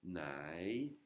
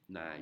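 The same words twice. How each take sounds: First: "Nai" stretched out slowly; long vowel. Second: "Nai" with a shortened vowel glide; less long. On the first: Teacher showing the word with Hon Hip, lengthened vowel. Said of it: "et là, on a". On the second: Teacher showing the word without Hon Hip, shorter vowel. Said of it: "prononciation moins longue". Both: Shown as a demonstration.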